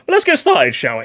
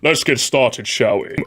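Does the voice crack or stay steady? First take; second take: cracks; steady. First: The voice cracks during the phrase. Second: The voice stays steady throughout the phrase.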